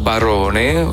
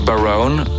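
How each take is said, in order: First: The name is pronounced the Italian way. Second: The name is pronounced the English way.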